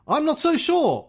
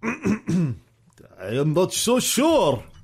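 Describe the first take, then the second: First: It is said in the speaker's usual accent. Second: It is said in a put-on Russian accent.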